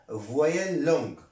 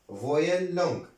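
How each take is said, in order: No difference in how they are said.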